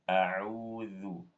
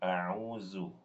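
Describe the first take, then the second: First: The middle consonant is a voiced th sound. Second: The middle consonant is a buzzing z sound. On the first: The speaker calls it right. "Yang benar a'udzu. Zu dengan zal" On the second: The speaker calls it wrong. "bukan a'uzu. A'uzu itu zai"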